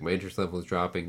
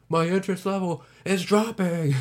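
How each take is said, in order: First: It is said at a calm, normal volume. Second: It is yelled loudly.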